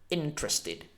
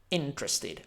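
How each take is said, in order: First: The middle e sound is dropped. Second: The middle e sound is dropped.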